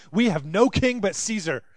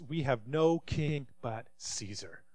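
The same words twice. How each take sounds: First: Louder, raised pledge with stress on "no"; loud declaration. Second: Softer and slowed, each word weighed; a grave, hushed pledge to Caesar; quiet, slow declaration. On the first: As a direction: proclaim "We have no king but Caesar" boldly, hitting "no". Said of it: "they say". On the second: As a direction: let "We have no king but Caesar" fall low and slow with stress on "no". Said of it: "The leading priest shouted back this". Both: Acted.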